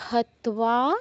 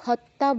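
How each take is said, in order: First: A single t is followed by a w sound. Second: The t is doubled with no w sound. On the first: The speaker calls it right. "আমাদের ত উচ্চারণ করতে হবে একবার, তারপর ওটা উচ্চারণ করতে হবে" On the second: The speaker calls it wrong. "কেউ হত্যা বলবেন না, হত্যা বললে বোঝাবে দুটো ত"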